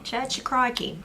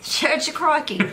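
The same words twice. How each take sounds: First: Higher mock Aussie repeat; Australian accent. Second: High, loud hammed-up Aussie; Australian accent. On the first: Wife repeating the joke in an Australian accent. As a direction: savour the punchline in an accent. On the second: Wife shouting the punchline in an Australian accent. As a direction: belt it like a croc hunter. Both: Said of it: "where did Steve Irwin go to church".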